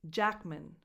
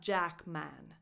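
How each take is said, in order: First: The last syllable has a reduced schwa vowel. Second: The last syllable has a full vowel. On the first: The speaker calls it right. "It's Jackman. / the vowel is just a schwa" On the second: The speaker calls it wrong. "It's not Jackman"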